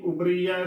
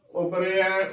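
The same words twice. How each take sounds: First: ਉਬਰੀਆ as "ubree-ya"; wrong bihari sound. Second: ਉਬਰਿਆ as "ubre-ya"; correct sihari sound. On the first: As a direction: give ਉਬਰੀਆ a long ee after the r. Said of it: "ਨਾ ਕਿ ਉਬਰੀਆ". (ਉਬਰੀਆ ਵਿੱਚ ਬਿਹਾਰੀ ਦੀ "ਰੀ") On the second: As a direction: give ਉਬਰਿਆ a "re" in the middle, not "ree". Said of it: "ਉਬਰਿਆ ਉਚਾਰਨ ਕਰਨਾ ਹੈ". (ਉਬਰਿਆ ਵਿੱਚ ਸਿਹਾਰੀ ਦੀ "ਰੇ") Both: Shown as a demonstration.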